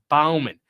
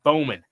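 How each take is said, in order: First: The first vowel sounds like 'ow' in 'cow'. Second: The first vowel sounds like 'oh' in 'go'. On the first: The speaker calls it right. "It's Bauman" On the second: The speaker calls it wrong. "not the Coyotes and Bowman"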